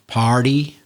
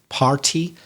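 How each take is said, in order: First: The middle consonant is a soft D sound. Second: The middle consonant is a hard T sound. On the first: "And the party, D, is softer" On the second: "So the T, party, is harder"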